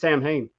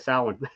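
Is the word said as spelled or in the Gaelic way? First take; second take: as spelled; Gaelic. First: It is read as spelled, like 'Sam Hain'. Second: It is said the Gaelic way, not as spelled. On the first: It names the band. "I always pronounce it Sam Hain. The band" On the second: It names the Celtic day. "when I'm talking about the the the Celtic day, ... then I say Samhain"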